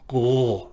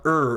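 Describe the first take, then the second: First: The R is made back in the throat. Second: The R is made with the tongue tip raised. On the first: The speaker calls it right. "the R is in the back of the throat" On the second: The speaker calls it wrong. "It's not er"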